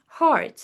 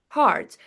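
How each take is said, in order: First: The word is said with a clear R sound. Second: The same.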